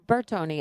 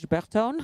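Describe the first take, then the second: First: The name is said with Italian pronunciation. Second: The name is said with French pronunciation. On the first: "I'm using the Italian pronunciation" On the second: "or in French"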